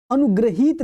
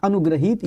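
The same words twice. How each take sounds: First: अनुग्रहित as the rejected example; teacher's wrong take on अनुग्रहित; wrong form. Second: Teacher's model of अनुग्रहित; correct form. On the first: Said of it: "नहीं होता". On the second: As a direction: drop the pitch on अनुग्रहित to confirm it. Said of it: "ये शुद्ध लिखा हुआ है". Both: Shown as a demonstration.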